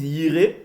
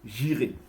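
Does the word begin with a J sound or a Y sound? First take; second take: Y sound; J sound. First: The word begins with a Y sound. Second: The word begins with a J sound. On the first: This is how it is said in Israel. "Comme en Israël, on prononce le Y" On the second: This is how the speaker's own community says it. "le Y, nous on le prononce J"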